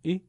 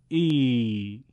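First: "ای" as a brief, clipped i; short i with no stretch; short kasra. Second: "ای" held as a long ee; louder, stretched-out i; long madd ya. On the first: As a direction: cut the vowel of ای short. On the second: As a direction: draw the vowel of ای out long. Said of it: "یه بار با یاء مدی". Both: Shown as a demonstration.

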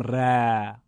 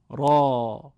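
First: "ر" short and thin, Persian style; slow, light "ر" with a thin vowel; thin wrong ra. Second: "را" louder, with a full heavy Arabic a; fat, round "را"; heavy fat raa. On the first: Teacher contrasting the thin ra for students. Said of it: "نمیگیم ر". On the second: Teacher modelling the correct fat raa for students, louder. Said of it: "چاق و توپل". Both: Shown as a demonstration.

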